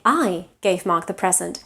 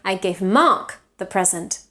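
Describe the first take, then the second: First: The stress falls on the word I. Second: The stress falls on the word Mark.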